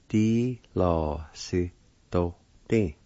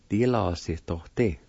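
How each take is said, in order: First: "Di lo si do ti" slowly, each syllable drawn out. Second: Said in the usual way. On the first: Shown as a demonstration. Teacher pronouncing the word platform, "Di lo si do ti" slowly in syllables. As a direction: say "Di lo si do ti" slowly with gaps. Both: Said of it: "is pronounced like this".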